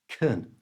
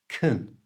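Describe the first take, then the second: First: The vowel is reduced to a weak 'uh' sound. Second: The same.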